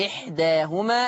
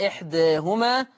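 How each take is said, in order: First: إحداهما with a full open "aa" after the d; long open middle vowel in إحداهما; open fath. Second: إحداهما with the "aa" tilted toward "ee"; fronted middle vowel in إحداهما; taqlil. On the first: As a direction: say إحداهما as "ihdaahuma". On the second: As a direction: say إحداهما as "ihdaehuma". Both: Shown as a demonstration. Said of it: "أي فيه الفتح والتقليل".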